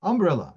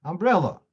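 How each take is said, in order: First: "Umbrella" stressed on the first syllable, UM-brella; misplaced stress. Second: "Umbrella" stressed on the middle syllable, um-BREL-la; correct stress. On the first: Teacher showing students a confusing word, "Umbrella" with misplaced early stress. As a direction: hit the opening syllable of "Umbrella" hard, wrongly early. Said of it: "You don't understand what I'm talking about". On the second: Teacher making the word understood, "Umbrella" stressed on BREL. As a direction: punch the second syllable of "Umbrella". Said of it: "Now you know what I'm talking about".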